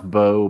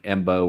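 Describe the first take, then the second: First: The name starts directly with a B sound. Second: The name starts with an M sound before B. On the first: "I think it's it's pronounced Bo" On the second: "a lot of people do pronounce it like Embo"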